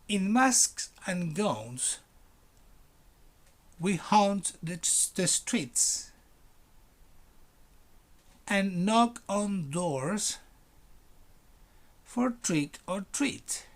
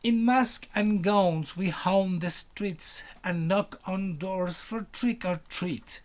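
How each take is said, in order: First: It is read slowly, phrase by phrase. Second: It is read at a regular speed.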